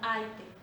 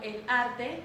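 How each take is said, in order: First: The r becomes an i-like vowel sound. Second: The r before the t is pronounced.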